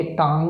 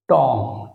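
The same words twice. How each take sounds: First: টাং said with an open "aa" vowel; টাং with "aa" instead of rounded "o"; common mispronunciation. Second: টং with a rounded "o" vowel; টং as one syllable, rounded vowel; correct pronunciation. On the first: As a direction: say টাং to rhyme with "sung". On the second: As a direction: say টং to rhyme with "song", final letters silent. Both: Shown as a demonstration. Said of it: "এটাকে অনেকে টাং উচ্চারণ করে".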